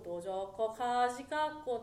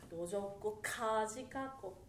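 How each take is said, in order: First: The K sounds are soft and run together. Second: The K sounds are crisp and clearly heard. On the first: The speaker calls it wrong. "そのまま行くんじゃなくて" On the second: The speaker calls it right. "K がちょっと聞こえたい"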